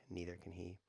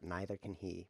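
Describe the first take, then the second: First: Said in the usual way. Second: "neither" opening with NIGH, rhyming with "scyther"; fancy pronunciation. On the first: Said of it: "Fancy way to say". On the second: Real, not acted. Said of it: "Fancy way to say neither can he".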